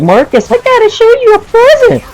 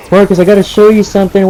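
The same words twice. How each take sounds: First: Extremely high, squealing creature voice; exaggerated falsetto imitation of a kid; high-pitched creature. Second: Lightly voiced excited kid, higher and quick; quick, raised mock kid voice; eager kid. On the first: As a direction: squeal it like some little creature. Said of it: "a high-pitched voice, like if he's, like, some kind of creature". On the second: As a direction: imitate a kid rushing in with news. Voices the kid running inside.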